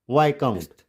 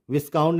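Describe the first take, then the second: First: Viscount as VAI-count; silent S. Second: Viscount as VIS-count; S sounded. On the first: Teacher restates the correct reading, silent S. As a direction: say viscount with long i, no s. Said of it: "viscount नहीं". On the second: Teacher shows the wrong reading, S sounded. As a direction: misread viscount with short i and s. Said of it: "नहीं". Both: Shown as a demonstration.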